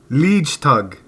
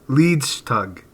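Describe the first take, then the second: No difference in how they are said.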